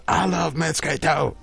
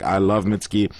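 First: High, drawn-out fan enthusiasm; imitating an excited fan; mock gushing. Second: Said in the usual way. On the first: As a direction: gush it slowly in a higher voice. Acting out an enthusiastic viewer comment.

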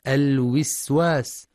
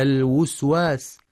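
First: الوسواس with i after the first w, as wiswas; wrong kasra. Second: الوسواس with u after the first w, as wuswas; wrong damma. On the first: Teacher imitates the kasra mistake, wiswas. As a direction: say الوسواس as alwiswas. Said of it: "بكسر الواو". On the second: Teacher imitates the damma mistake, wuswas. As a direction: say الوسواس as alwuswas. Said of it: "أو ضمها". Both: Shown as a demonstration.

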